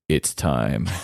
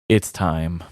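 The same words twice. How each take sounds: First: It is said in an exaggerated put-on voice. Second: It is said in a plain, normal voice.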